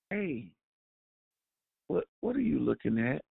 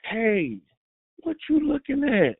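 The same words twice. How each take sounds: First: Softer, gentle asking; a quiet, gentle question; gentle demo. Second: Confrontational demo. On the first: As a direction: ask it kindly, almost softly. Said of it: "Do I gently explain to you". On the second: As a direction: bark it like picking a fight. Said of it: "depending on the tone". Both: Shown as a demonstration.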